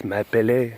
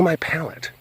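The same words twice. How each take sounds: First: "palette" Frenchified as "peh-lay"; mock French accent. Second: Said in the usual way. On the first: Showing how they say it in France, French accent. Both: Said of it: "as they would say in France".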